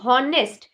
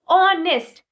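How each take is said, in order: First: The word begins with an h sound. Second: The word begins with a vowel sound. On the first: The speaker calls it wrong. "ना कि हॉनेस्ट" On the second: The speaker calls it right. "उसका pronunciation ऑनेस्ट आया है"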